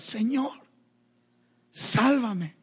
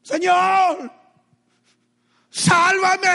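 First: Restrained plea. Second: Very high, full-force scream for rescue; desperate cry. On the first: Repeats Peter's two-word cry, restrained. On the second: Drowning Peter to the Lord, desperate screamed cry. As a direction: shriek it out for your life. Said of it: "¿Cuál fue el clamor de Pedro?". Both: Retold or imitated.

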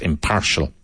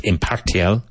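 First: Impartial with "sh" for the T; proper pronunciation. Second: Impartial said as spelled, with a T sound; spelling pronunciation. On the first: Teacher giving the real sound of impartial. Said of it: "but pronounced impartial". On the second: Teacher showing the spelling of impartial. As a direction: read impartial letter by letter, T and all. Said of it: "it's spelled impartial". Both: Shown as a demonstration.

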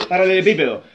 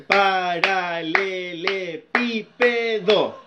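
First: Said in the usual way. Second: "Paralelepípedo" very slowly, split into syllables; drawn-out "Paralelepípedo", one clap-beat per syllable. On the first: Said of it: "me enseñaron aplaudiendo". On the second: Shown as a demonstration. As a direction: count out every syllable of "Paralelepípedo". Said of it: "a contar las sílabas".

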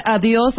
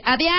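First: Said in the usual way. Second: "adiós" como "adiás", subiendo al final; entonación exagerada. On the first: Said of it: "¿Qué prefieres". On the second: Shown as a demonstration. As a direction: di "adiós" con la o abierta en a, cantarina. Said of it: "tiene que ver con la entonación". ("adiós" afectado, "adiás", con final ascendente)

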